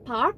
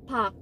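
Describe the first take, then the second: First: The name is said with an R sound. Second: The name is said without an R sound. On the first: The speaker calls it wrong. "nggak ada R-nya, bukan park" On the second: The speaker calls it right. "tapi park"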